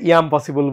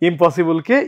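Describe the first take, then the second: First: The word begins with a drawn-out 'I'm' sound. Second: The word begins with a short 'im' sound. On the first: "ইয়াম possible বলা হয়"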